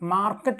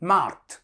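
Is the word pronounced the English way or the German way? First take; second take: English; German. First: It is said like English market, two syllables. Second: It is said as one syllable, markt. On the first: The speaker calls it wrong. "Super മാർക്കറ്റ് എന്ന് പറയാൻ പാടില്ല, അത് ഇംഗ്ലീഷിലാണ്" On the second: The speaker calls it right. "മാർക്റ്റ് എന്ന് ഉച്ചരിച്ച്"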